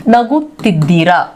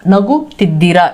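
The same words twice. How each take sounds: No difference in how they are said.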